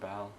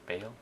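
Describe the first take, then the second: First: The name is said unlike the word 'bale'. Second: The name is said like the word 'bale'.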